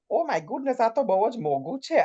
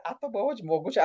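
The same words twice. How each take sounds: First: Lightly voiced posh auntie, pitched up; a hint of a grand lady exclaiming; imitating her stage character at the shops; posh Mrs Kapoor voice. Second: A touch of the posh auntie, slightly higher; lightly voiced grand lady, repeated; retelling the line for a colleague; posh Mrs Kapoor voice. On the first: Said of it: "Why the hell have I just said it like this?". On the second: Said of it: "I don't talk like this".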